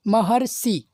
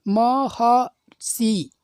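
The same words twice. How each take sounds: First: Said in the usual way. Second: महर्षि stretched very slowly, syllable by syllable; exaggerated slow teacher pronunciation of महर्षि; slow demo. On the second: Shown as a demonstration. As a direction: draw out every syllable of महर्षि. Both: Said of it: "अर की ध्वनि निकल रही है".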